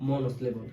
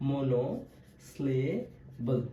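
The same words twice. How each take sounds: First: Said in the usual way. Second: মনোস্লেবল very slow, split মনো, স্লে, বল; softly spaced-out মনোস্লেবল, part by part; syllable by syllable. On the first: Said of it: "কি স্লেবল বলছি?". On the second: Shown as a demonstration. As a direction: break মনোস্লেবল into parts with long pauses. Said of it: "ভাগ ভাগ করে উচ্চারণ".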